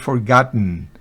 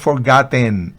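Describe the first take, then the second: First: The last syllable's vowel is barely heard. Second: The last syllable's vowel is fully pronounced. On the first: The speaker calls it right. "hay una E que casi no se escucha" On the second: The speaker calls it wrong. "No es forgotten, nope"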